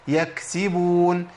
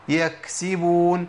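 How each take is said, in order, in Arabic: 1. تُنطق الكاف والنفس يمر معها. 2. تُنطق الكاف والنفس يمر معها.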